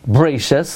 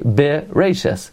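First: No vowel is sounded after the b. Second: A short vowel is sounded after the b. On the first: The speaker calls it wrong. "where we don't say bereshis" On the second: The speaker calls it right. "We say bereshis, where we pronounce the shva"

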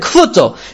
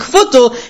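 First: The consonant after k is a p sound. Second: The consonant after k is a v sound. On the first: The speaker calls it wrong. "he said it with a pay" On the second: The speaker calls it right. "you should say the tzaddik's names correctly"

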